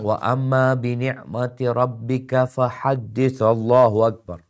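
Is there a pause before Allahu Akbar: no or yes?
no. There is no pause before Allahu Akbar. The speaker calls it wrong.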